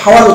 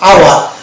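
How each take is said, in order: First: The word begins with an audible h sound. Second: The word begins directly with a vowel sound. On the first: The speaker calls it wrong. "হাওয়ার উচ্চারণ না করে" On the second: The speaker calls it right. "আমরা এটাকে উচ্চারণ করছি আওয়ার"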